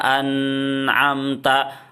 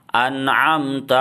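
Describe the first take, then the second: First: The n sound is held long. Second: The n sound passes quickly. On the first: The speaker calls it wrong. "ditahan seperti itu salah" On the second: The speaker calls it right. "Langsung aja cepat"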